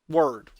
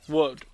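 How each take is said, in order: First: The ending sounds like 'ward'. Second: The ending sounds like 'wood'. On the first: The speaker calls it right. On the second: The speaker calls it wrong.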